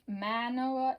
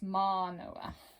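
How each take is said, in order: First: The word flows smoothly without a glottal break. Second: The word has a glottal break and long vowel. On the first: The speaker calls it wrong. "instead of Manoa" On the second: The speaker calls it right. "it's Manoa"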